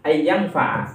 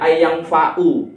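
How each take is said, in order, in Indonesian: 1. Kata kerja ini berakhir dengan vokal 'a'. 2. Kata kerja ini berakhir dengan vokal 'u'. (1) "harus dibaca nasab, ditandai dengan fat fathah" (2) "tidak boleh ... gak boleh"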